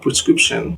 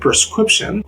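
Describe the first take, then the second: First: The sounds are in their usual order. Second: Two sounds are swapped from their usual order. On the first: "Instead of" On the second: "people say"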